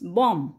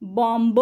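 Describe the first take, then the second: First: The word ends with an m sound only. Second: The word ends with an audible b sound. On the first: The speaker calls it right. "It's बॉम्ब. म" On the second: The speaker calls it wrong. "बॉम्ब म्हणायचं नाही"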